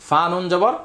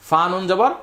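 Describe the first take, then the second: Both takes have the same delivery.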